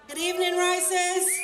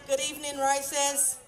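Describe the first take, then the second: First: It is said louder, with more energy. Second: It is said at a normal volume.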